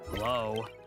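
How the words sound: It sounds frustrated.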